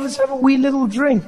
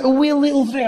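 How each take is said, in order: First: High, giving in gladly; won-over agreement. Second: High Scottish lilt; coaxing Scottish friend. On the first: Comic agreeing to join his Scottish friend, high and persuaded. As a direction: cave in to the temptation. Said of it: "I was like". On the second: Scottish friend tempting comic to the pub, high coaxing lilt. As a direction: tempt with a cute Scottish accent. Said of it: "It was like". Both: Acted.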